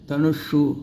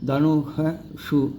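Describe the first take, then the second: First: No h-like sound is heard before 'shu'. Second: An h-like sound is heard before 'shu'. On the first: The speaker calls it right. "தனுஷுன்னு இதுக்கு தான் கரெக்டாக சொல்லணும்" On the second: The speaker calls it wrong. "இது தப்பு, இந்த மாதிரி சொல்லக்கூடாது"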